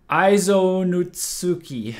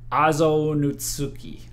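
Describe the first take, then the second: First: Aizo said with a long "eye" first, drawn out; careful, slow try at "Aizo Nutsuki", opening on an "eye" sound; attempted Japanese pronunciation. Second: Azo said with an open "ah" first, drawn out; careful second try at "Azo Nutsuki", opening on "ah" rather than "eye"; corrected pronunciation attempt. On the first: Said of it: "how well do I say". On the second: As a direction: sound out "Azo Nutsuki" slowly, starting Azo like "ah-zo". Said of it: "fixed one thing and broke another". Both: Shown as a demonstration.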